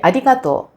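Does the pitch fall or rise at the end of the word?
falls. The pitch does not rise at the end. This is the Tokyo way of saying it. "Tóquio seria arigato"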